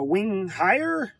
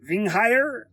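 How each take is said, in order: First: The name is said in a plain accent. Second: The name is said in a villainous German accent.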